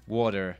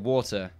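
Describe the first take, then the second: First: The middle t sounds like a soft d. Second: The middle t is said as a clear t. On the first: It is the relaxed American way of saying it. "getting rid of the T, turning it into a D" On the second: It is the more careful, English-style way of saying it. "I don't know enough about England"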